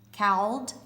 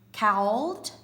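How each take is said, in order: First: The word is said with an 'ow' vowel and L. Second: The same.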